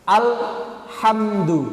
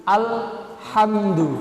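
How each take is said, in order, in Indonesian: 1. Ada jeda panjang setelah 'al'. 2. Ada jeda panjang setelah 'al'.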